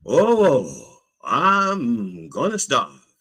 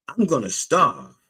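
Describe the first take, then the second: First: Slow, drawn-out high lament; long-vowelled melodramatic moan; mock wail. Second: High-pitched acted worry; mock-anxious hungry man; worried complaint. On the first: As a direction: wail it slowly, hamming up the misery. Repeats complaint as a wail.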